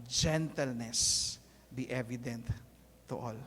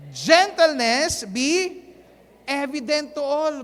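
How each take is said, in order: First: Gentle hushed reading. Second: Slow, louder proclaimed reading of the verse; loud congregational reading. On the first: Shown as a demonstration. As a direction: let it sink in, soft and gentle. Pastor rereads the verse gently. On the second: Acted. Pastor leading the church in reading the verse, slow and loud. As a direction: call it out big so everyone reads along.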